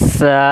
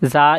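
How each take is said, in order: First: The consonant is said with a hissing sound. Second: The consonant is said plainly, without a hiss. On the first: The speaker calls it right. "এইভাবে একটি স্যারা আওয়াজ হবে" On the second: The speaker calls it wrong. "কিছু কিছু আমরা এটা যা এইভাবে পড়ে থাকি"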